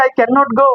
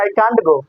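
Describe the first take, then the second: First: "cannot" as two clear syllables, can-not; full form cannot. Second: "can't" short and clipped, British style; contracted "can't" as spoken; British contraction. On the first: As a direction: spell out "cannot" fully, no contraction. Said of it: "তুই পড়েছিস". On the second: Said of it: "আর ওরা বলছে". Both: Shown as a demonstration.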